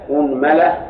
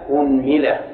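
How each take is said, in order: First: The word begins with the vowel u. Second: The word begins with the vowel u.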